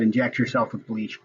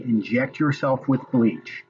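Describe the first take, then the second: First: Said in the usual way. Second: "Inject yourself with bleach." said slowly, leaning hard on "yourself" with a falling end; slow, stressed quote. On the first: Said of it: "He never fucking said". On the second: Shown as a demonstration. To viewers, daring anyone to find the quote: slow, stressed. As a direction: spell out "yourself" word by word, slow and firm. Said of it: "Show me a video of him saying".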